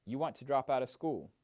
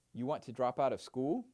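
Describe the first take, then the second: First: You want to drop out of school? with the tune falling, not rising, at the end; flat reflection. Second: You want to drop out of school? with the voice rising on "school"; rising question. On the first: Mentor demonstrating a reflection to a mentee, falling tune. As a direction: say it as a statement, voice going down on "school". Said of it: "is a reflection because my voice did not". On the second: Mentor demonstrating a question to a mentee, rising tune. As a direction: ask it, tune going up at the end. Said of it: "clearly a question because my voice went up at the end".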